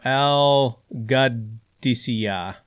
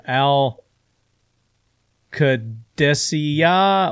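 First: "Qadisiyah" slowly with a G, "gud-ee-see-yah"; slow, syllable by syllable "Qadisiyah", softened to G; second pronunciation variant. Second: "Qadisiyah" drawn out slowly with a K, "kuh-DESS-ee-yah"; slow, syllable by syllable "Qadisiyah", hard K start; first pronunciation variant. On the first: Host offering the alternative Iraqi designation, slow G-version of "Qadisiyah". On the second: Host giving the official Iraqi designation, slow K-version of "Qadisiyah". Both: Shown as a demonstration. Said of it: "official Iraqi designation is either".

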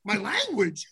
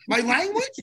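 First: LANGUAGE falling in disbelief; indignant echo. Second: LANGUAGE higher, rising sharply; incredulous question. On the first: Repeats the complaint back. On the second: Repeats it, more incredulous. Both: Retold or imitated.

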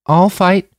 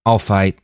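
First: Voiced high and loud as a determined girl; high determined girl's voice; young woman's voice. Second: Firm, near the narrator's own pitch; calm resolve, lightly voiced young man; a hint of a young man, firm; Manny's steady voice. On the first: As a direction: Sasha pitched up, firm resolve. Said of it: "she said". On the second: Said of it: "Manny said to Major Clark". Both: A narrator's reading.

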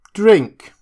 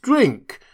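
First: Loud, high one-word command; insistent order. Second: High, pressing repeat of the command; insist, pushing the drink; insistent order. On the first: Drunk doctor ordering Prendick to drink, loud and high. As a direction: push the glass at him. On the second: Drunk doctor repeating his order to drink, high. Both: A narrator's reading. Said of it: "he said, returning".

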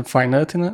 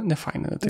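First: Said in the usual way. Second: The words «не файна дитина» dropped much softer and higher; mock verdict. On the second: Joking about rating kids' photos, softer mock verdict. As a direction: softly toss off «не файна дитина» as a snap verdict. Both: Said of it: "будемо зараз гортати на айпаді і казати".

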